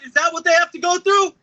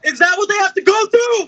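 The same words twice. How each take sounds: First: Said in the usual way. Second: Much higher, louder outraged yell; angry shout. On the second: Real, not acted. Speaker demands of audience about his future kid, furious shout. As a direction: cry it out to the crowd in real anger. Repeated question, now shouted.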